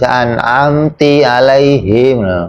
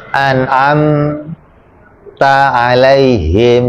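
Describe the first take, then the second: First: The verb ends with an 'i' vowel. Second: The verb ends with an 'a' vowel.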